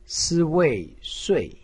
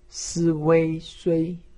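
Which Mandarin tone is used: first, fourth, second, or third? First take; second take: fourth; first. First: The pitch falls sharply from high. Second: The pitch stays high and level. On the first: "四声" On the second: "一声"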